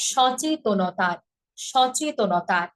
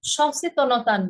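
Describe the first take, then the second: First: সচেতনতার slowly with a clear চ; সচেতনতার, each syllable spaced out; correct pronunciation. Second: সচেতনতার said carelessly; wrong pronunciation. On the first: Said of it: "কি হবে?". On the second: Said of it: "সচেতনতার না". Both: Shown as a demonstration.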